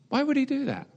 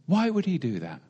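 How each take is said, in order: First: Would jumps up high, incredulous; stress on would. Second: Said in the usual way. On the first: Shown as a demonstration. Preacher repeats his question to the congregation, would stressed high. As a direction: hit would hard and high.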